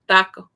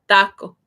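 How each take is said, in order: Both takes have the same delivery.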